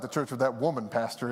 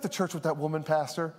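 First: It sounds suspicious and disapproving. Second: It sounds warm and approving. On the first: The speaker objects to the church. "oh boy, here we go" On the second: The speaker likes the church. "some people would say it like this"

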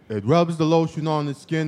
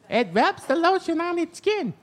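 First: It is said in a normal speaking voice. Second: It is said in a high, squeaky helium voice.

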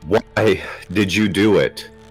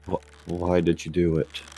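First: It is yelled loudly. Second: It is said softly while sobbing.

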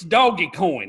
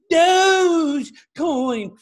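First: The first word has two syllables, like doggy. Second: The first word has one syllable, like dohj. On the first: The speaker calls it right. "I called it Doggy Coin back then" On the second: The speaker calls it wrong. "fancy pronunciation"

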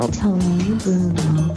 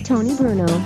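First: It is said very slowly. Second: It is said very fast.

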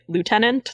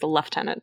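First: It is pronounced the way it is spelled. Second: It is pronounced the Canadian way. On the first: The speaker calls it wrong. "Like it should be Lieutenant" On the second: The speaker calls it right. "No, it is Lieutenant"

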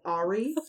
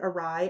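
First: The word is said as ar-ee. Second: The word is said as uh-rye. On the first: The speaker calls it wrong. "read the word awry as Ari" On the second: The speaker calls it right. "the word awry"

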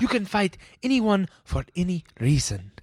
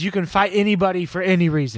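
First: It is said in Guru Pitka's accented voice. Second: It is said in the speaker's normal voice.

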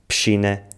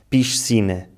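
First: The middle consonant sounds like sh. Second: The middle consonant sounds like s. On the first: This is the typical Lisbon pronunciation. "transformamos o som se em x" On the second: This is the pronunciation used outside Lisbon. "Em vez de dizermos"

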